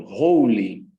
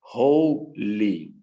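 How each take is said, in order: First: Said in the usual way. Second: "Holy" split with a clear pause, ho... ly; two separate syllables. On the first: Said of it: "vejam como eu falo". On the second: Shown as a demonstration. Teacher showing students two syllables, "Holy" said as ho, ly. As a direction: break "Holy" slowly into its two beats. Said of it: "Duas sílabas".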